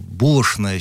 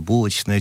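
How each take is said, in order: First: The word is said in the older way. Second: The word is said in the newer way. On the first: This is how people used to say it. "Раньше говорили там булочная" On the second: This is how people often say it now. "сейчас булочная часто"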